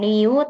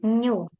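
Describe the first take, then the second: First: It sounds like ni followed by u. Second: It sounds like a single blended nyu. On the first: The speaker calls it wrong. "bukan Niu" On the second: The speaker calls it right. "tapi Nyu"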